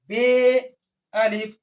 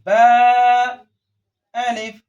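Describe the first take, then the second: First: The letter name is said the Urdu way. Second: The letter name is said the Arabic way. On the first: The speaker calls it wrong. "Urdu की तरह ... ऐसा नहीं पढ़ना है" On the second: The speaker calls it right. "अरबी लहजे में ही इसको भी पढ़ना है"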